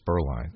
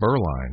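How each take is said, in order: First: The stress is on the second syllable. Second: The stress is on the first syllable. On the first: This is how the name's owner says it. The speaker calls it right. "he said, it's Berline" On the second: This is a regional Kentucky pronunciation. The speaker calls it wrong. "that emphasis on that first syllable is just my raising here in Kentucky"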